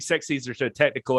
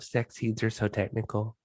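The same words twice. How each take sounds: First: It is said in the speaker's normal voice. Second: It is said in an imitated, put-on voice.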